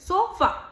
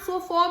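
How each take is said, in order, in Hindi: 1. अंतिम स्वर एक छोटा, कमज़ोर, तटस्थ स्वर है। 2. अंतिम स्वर 'walk' के स्वर जैसा सुनाई देता है। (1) "अ को इतना वीक वॉवल साउंड दे देते हैं" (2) "वॉक में ए की आवाज ओ होती है"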